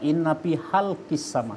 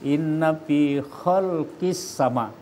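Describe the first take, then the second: First: The word halq begins with a soft h sound. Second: The word khalq begins with a rough kh sound. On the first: It refers to the throat of the heavens and earth. The speaker calls it wrong. "sesungguhnya dalam tenggorokan langit dan bumi" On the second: It refers to the creation of the heavens and earth. The speaker calls it right. "Kalau khol itu khalq itu sesungguhnya dalam penciptaan langit dan bumi"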